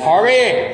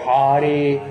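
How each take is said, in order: First: It is said with an American English accent. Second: The R is made against the roof of the mouth. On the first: The speaker calls it wrong. "é pronúncia do americano" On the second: The speaker calls it right. "O R é sempre no céu da boca"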